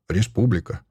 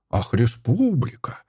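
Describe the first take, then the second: First: Said in the usual way. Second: Slow, drawn-out mocking echo; snorting disdain, stretched on республика; scornful snort. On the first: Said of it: "Я ответил". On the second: A narrator's reading. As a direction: throw the word back with contempt. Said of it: "фыркнул он".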